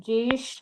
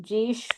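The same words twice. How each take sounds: No difference in how they are said.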